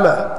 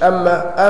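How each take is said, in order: First: The m sound is single and short. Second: The m sound is doubled and held long. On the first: The speaker calls it right. "أما بالتخفيف" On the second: The speaker calls it wrong. "مش أما"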